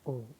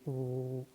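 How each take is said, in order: First: The vowel has a medium, normal length. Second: The vowel is stretched out long. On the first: The speaker calls it right. "मारूफ, normal" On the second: The speaker calls it wrong. "ये खींचा जा रहा है"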